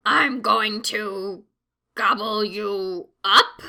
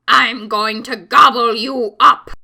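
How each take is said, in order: First: Slow, hesitant troll threat; unsure troll. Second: Threatening troll. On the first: Troll faltering before the biggest goat, slow and unsure. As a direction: trail off, unsure of yourself. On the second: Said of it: "stopped by the troll". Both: A narrator's reading.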